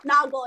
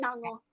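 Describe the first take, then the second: First: "Nago" said NAH-go with a hard g and no n; "Nago" as two clean syllables, nah-go; correct name. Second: "Nango" said NAHN-go with an n before the g; "Nango" with a nasal n, nahn-go; wrong name. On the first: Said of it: "not Nango". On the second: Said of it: "Nago, yeah". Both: Shown as a demonstration.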